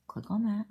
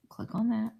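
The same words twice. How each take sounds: First: Breathy whispered aside to herself. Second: Said in the usual way. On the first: Real, not acted. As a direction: whisper it under your breath at the screen. Pleading with a stuck computer.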